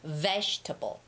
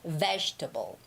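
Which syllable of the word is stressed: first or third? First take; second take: first; first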